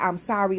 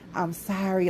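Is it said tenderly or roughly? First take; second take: roughly; tenderly. First: It is said in a rough way. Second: It is said softly and passionately.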